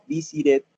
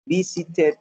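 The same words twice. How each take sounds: First: "visited" with the middle T tapped like a quick R; softened T. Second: "visited" ending in a full "ted"; clear T. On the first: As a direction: say "visited" as VI-si-red. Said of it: "si me quiero saltar la T". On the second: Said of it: "yo digo ted". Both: Shown as a demonstration.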